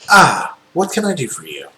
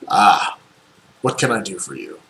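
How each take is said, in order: First: The character voice sounds slightly less manly. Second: The character voice sounds like a man.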